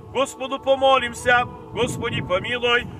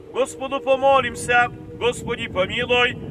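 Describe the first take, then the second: The two takes are said the same way.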